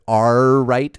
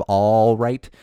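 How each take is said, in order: First: Pirate "Arr right", rolled R. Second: Said in the usual way. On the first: Shown as a demonstration. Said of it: "I almost started the episode with". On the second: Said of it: "instead of".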